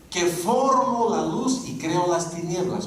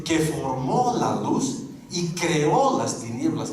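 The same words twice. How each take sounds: First: "formo" y "creo" acentuados en la primera sílaba, lento y claro; presente sin acento. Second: "formó" y "creó" con el acento en la última sílaba, lento; contraste: "formó" como for-MÓ y "creó" como cre-Ó; pretérito con acento. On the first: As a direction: lee "Que formo la luz y creo las tinieblas" en presente, marcando FOR y CRE. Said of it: "no me he comido los acentos". (pronuncia "formo" como FOR-mo y "creo" como CRE-o, despacio) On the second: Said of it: "No dice". (lee despacio cargando la sílaba final de "formó" y "creó") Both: Shown as a demonstration.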